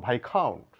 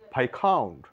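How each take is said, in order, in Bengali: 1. 's' ধ্বনিটি নীরব। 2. 's' ধ্বনিটি নীরব।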